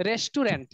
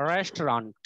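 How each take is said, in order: First: "রেস্টুরেন্ট" in three syllables, res-tu-rent; Bengali pronunciation. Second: "রেস্টুরেন্ট" in two syllables, rest-ront, pitched low; English pronunciation. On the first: Teacher showing how Bengalis say it, "রেস্টুরেন্ট" as res-tu-rent. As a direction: say "রেস্টুরেন্ট" with a full "tu" in the middle, Bengali style. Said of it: "আমরা এটাকে কি বলি বাঙালিরা". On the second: Teacher modelling the English way, "রেস্টুরেন্ট" as low two-syllable rest-ront. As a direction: drop the middle vowel of "রেস্টুরেন্ট": rest-ront. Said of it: "এটার উচ্চারণ কি দেখো".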